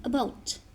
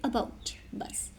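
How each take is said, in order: First: Said in the usual way. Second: Whispered demo word. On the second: Shown as a demonstration. Teacher whispers "about" to show the bout sound. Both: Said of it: "main जो हमारा focus है वो है B O U T पे".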